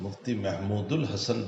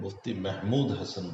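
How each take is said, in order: First: An 'ul' sound links Mahmud and Hasan. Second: Mahmud and Hasan are said without linking sound. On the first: The speaker calls it wrong. "लोग मुफ्ती महमूदुल हसन बोलते हैं, ये गलत है" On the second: The speaker calls it right. "Mufti महमूद हसन Gangohi"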